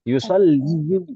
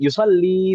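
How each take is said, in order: First: The word ends with an added oo sound. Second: The word ends with an ee sound. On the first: The speaker calls it wrong. "Yusalliyu berat, berat sekali" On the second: The speaker calls it right. "Lebih mending yusalli"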